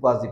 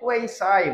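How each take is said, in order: First: It is said as kwah-zee, ending in zee. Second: It is said as kway-sigh, ending in sigh. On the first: The speaker calls it wrong. "কোয়াজি passive এরকম বলতাম আমরা" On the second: The speaker calls it right. "এটা কোয়েসাই বলে"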